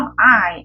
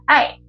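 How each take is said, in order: First: The vowel is long with a wide mouth. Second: The vowel is short with a small mouth. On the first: The speaker calls it wrong. "I가 아니라" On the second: The speaker calls it right. "입을 정말 조그맣게 대충 짧게"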